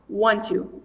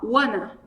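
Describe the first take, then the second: First: Both words are said fully as two syllables. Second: The words blend into one reduced form. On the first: This is the full form, tiring when said fast. "se você falar rápido, want to" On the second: This is the simpler, everyday form. "é o jeito mais simplificado de se falar"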